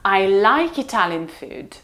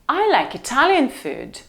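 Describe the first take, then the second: First: The stress falls on the word like. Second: The stress falls on the word Italian. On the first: The speaker does not hate it. "Why did you say that I hated it? I like it" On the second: It is this cuisine, not another one. "So why did you bring me tacos?"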